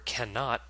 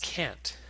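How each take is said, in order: First: It is said as the full two-syllable word. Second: It is said as one short contracted syllable.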